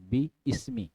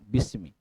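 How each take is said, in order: First: Two separate parts, with the glottal 'i' sounded. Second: One joined word, with the middle 'i' dropped. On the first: This is the original underlying form. "Asalnya bi ismi" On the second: This is how it is actually read aloud. "gabung bismi"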